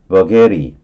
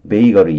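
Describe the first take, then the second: First: It is pronounced unlike the word bakery. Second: It is pronounced much like the word bakery. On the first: "버게리스 이렇게 발음할 수도 있어요" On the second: "비슷하게 발음을 하면 베이거리 이렇게 발음하고요"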